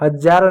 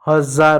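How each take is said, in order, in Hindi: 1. बीच का व्यंजन 'j' ध्वनि है। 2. बीच का व्यंजन 'z' ध्वनि है। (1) "हजार नहीं होता" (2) "हजार होता"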